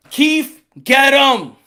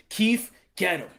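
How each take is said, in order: First: Firm order at normal pitch; Al Heyman. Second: Low, very soft order; Al Heyman. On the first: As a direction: call the underling out clearly. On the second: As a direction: call an underling under the voice. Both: Acted. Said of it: "Al Heyman's like".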